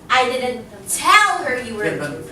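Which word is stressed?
tell. The word tell carries the stress. It was conveyed some other way. "I could have, you know, shouted it out or told somebody else"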